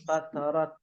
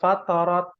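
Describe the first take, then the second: First: The final t is released with audible breath. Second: The final t is held with no breath. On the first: The speaker calls it right. "dibacanya ada eh, apa eh, angin yang keluar" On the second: The speaker calls it wrong. "Kalau dibacanya tidak keluar angin"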